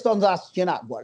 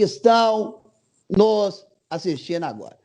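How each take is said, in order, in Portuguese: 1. Fala-se rapidamente, sem pausas. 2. Fala-se devagar, com pausas. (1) "só que ela é mais rápida" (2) "a Dilma fala do mesmo jeito, só que pausado"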